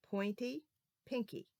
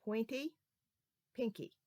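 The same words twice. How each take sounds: The two takes are said the same way.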